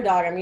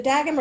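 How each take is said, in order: First: "Doggerman" opening with an AH, like "dog"; AH-vowel pronunciation. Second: "Dagum" with a first vowel as in "dad"; short-A pronunciation. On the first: Supervisor admitting their habitual mistake, "Doggerman" with AH. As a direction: say the first vowel of "Doggerman" as open AH. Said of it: "I keep saying Doggerman". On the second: Supervisor checking a colleague's name, "Dagum" with short A. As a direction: say "Dagum" with a flat A, as in "dag". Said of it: "Is it Dagum or Doggerman?". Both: Shown as a demonstration.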